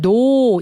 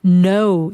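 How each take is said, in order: First: "no" with an English glide, "no-u"; wrong vowel. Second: "no" with a pure, steady "o"; slow "no" held on one vowel. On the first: Teacher showing the mistaken pronunciation of no. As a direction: say "no" with the diphthong, the wrong way. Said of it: "이게 아니에요". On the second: Teacher showing the correct pronunciation of no. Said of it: "이렇게 돼야 돼요". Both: Shown as a demonstration.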